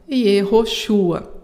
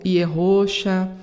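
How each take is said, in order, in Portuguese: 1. Toda vogal é pronunciada, inclusive o som de u. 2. A vogal u é engolida antes do a final. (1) "A pronúncia é a mesma para os dois nomes" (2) "engolir as vogais"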